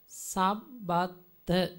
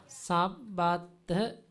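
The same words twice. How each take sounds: The two takes are said the same way.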